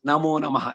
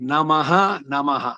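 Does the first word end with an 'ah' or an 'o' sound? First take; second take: o; ah. First: The first word ends with an 'o' sound. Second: The first word ends with an 'ah' sound.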